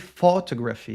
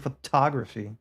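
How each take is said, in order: First: The stress falls on an unexpected syllable. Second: The stress falls on the expected syllable. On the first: The speaker calls it wrong. "You can't say photography" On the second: The speaker calls it right. "You have to say photography"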